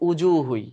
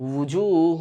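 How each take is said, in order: First: The word begins with a glottal stop. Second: The word begins with a firm w sound. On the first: The speaker calls it wrong. "হামজা করে ফেলে যেমন হামজা পেশ উ হয় তো উজু হুই এটা কিন্তু ভুল হবে" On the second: The speaker calls it right. "ওয়াওটা একটু চাপ দিয়ে বলতে হয় ওয়াও পেশ উ"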